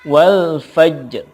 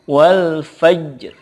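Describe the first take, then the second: Both takes have the same delivery.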